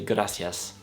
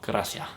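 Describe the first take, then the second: First: The final s sound is clearly pronounced. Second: The final s is dropped, with breath. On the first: "in some parts they also just say gracias" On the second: "they will just don't pronounce the last letter... they are also breathing out when they do that"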